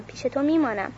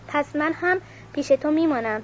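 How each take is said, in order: First: Softer echo of the cry. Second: Raised high, a mild cry up to him; narrated shout. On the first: Ursula repeating her promise to Cosimo, gentler. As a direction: let the call fade on the repeat. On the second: Ursula calling up to Cosimo, a raised mild cry. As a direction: call it up into the tree, pitched high. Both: A narrator's reading. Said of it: "فریاد زد".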